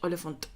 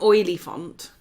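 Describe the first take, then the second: First: It is said smoothly, like the word elephant. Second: It is over-pronounced as two separate parts. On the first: The speaker calls it right. "Like an elephant, Oliphant" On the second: The speaker calls it wrong. "It's not that. An oily font"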